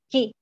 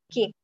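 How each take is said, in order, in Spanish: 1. La sílaba empieza con un sonido k fuerte. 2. La sílaba empieza con un sonido k fuerte.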